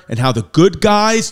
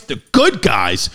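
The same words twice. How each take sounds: First: Said in the usual way. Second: Lower, slow and drawn out "the good guys"; slow deep mock hero voice. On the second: Shown as a demonstration. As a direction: drop the voice and drag out "good".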